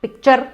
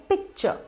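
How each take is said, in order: First: पिक्चर with a loud, hard final R; heavy "char" ending on पिक्चर; wrong pronunciation. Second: पिक्चर soft, no final R; softened ending on पिक्चर; gentle correct pronunciation. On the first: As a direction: punch पिक्चर as "pik-char". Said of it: "ये चर मत करिए इसको". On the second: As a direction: say पिक्चर lightly as "pik-chuh". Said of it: "बहुत ही gentle तरीके से कहना है". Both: Shown as a demonstration.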